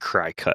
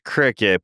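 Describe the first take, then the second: First: The first syllable sounds like 'cry'. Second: The first syllable sounds like 'crick'. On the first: This is how the name looks when written. The speaker calls it wrong. "it should be Crycut. Like that's how it looks" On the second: This is how the name is actually said. The speaker calls it right. "It's Cricut"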